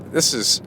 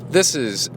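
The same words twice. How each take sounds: The two takes are said the same way.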